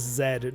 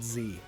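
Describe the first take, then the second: First: The letter is pronounced 'zed'. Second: The letter is pronounced 'zee'. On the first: This is the Canadian way to say it. The speaker calls it right. "I'm Canadian, okay? That letter is Z" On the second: This is the way other people tend to say it. The speaker calls it wrong. "not Z"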